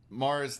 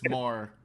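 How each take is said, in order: First: The name ends with a z sound. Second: The name ends without any s sound. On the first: "Mars the planet" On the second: "or just Mar, like I've marred my shoe"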